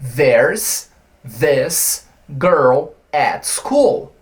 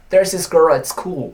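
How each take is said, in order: First: Said slowly, with the th sound fully pronounced. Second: Said quickly, with the th sound dropped. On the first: "como que eu pronunciaria essa frase bem devagar" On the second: "ele simplesmente vai esquecer desse T H aqui"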